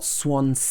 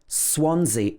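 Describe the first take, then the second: First: The second S is sounded as S. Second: The second S is sounded as Z. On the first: The speaker calls it wrong. "It's not Swansea" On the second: The speaker calls it right. "the second S is pronounced Z"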